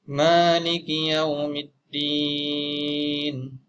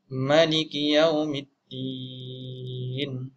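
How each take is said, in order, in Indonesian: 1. Vokal pertama pada Maliki panjang. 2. Vokal pertama pada Maliki pendek. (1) "dengan alif selepas huruf mim" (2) "membaca tanpa alif"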